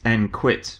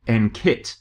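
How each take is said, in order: First: The Q is said with a kw sound. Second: The Q is said with a plain k sound. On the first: It sounds like quitting. The speaker calls it wrong. "I have to tell you off for calling it N Q I T" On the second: It sounds sporty and exciting. The speaker calls it right. "pronounce the Q with a K sound, so that it comes out as N K I T"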